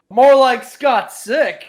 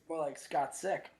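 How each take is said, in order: First: It is said loudly and forcefully, almost yelled. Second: It is said quietly, sounding far away. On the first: "I said it with my chest" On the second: "why'd you sound so far away from your microphone?"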